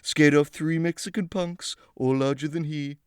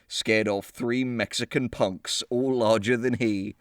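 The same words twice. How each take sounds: First: It is read in an exaggerated put-on character voice. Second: It is read in the speaker's ordinary voice. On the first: The speaker calls it right. "Let me go back" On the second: The speaker calls it wrong. "I read that in the wrong voice"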